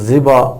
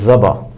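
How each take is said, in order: First: The first vowel is an 'i' sound. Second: The first vowel is an 'a' sound. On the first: The speaker calls it wrong. "ज़ाल के कसरा के साथ" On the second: The speaker calls it right. "ज़ाल के ऊपर फ़तह है"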